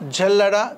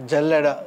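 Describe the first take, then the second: First: జల్లెడ said with a rising tune; modelling rise. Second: జల్లెడ said low with a falling tune; settled fall. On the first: Teacher prompts class with జల్లెడ, rising. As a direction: lift జల్లెడ at the end as a prompt. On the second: Teacher confirms జల్లెడ to pupils, falling. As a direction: drop జల్లెడ down to close it. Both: Shown as a demonstration. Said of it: "teacher models then repeats".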